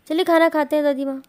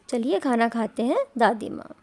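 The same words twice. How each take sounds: First: There is no pause before the last two words. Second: There is a pause before the last two words. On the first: Grandma is the one being eaten. "Next में देखो comma नहीं लगा" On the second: Grandma is being invited to eat. "देखो इनमें comma लगा है बीच में"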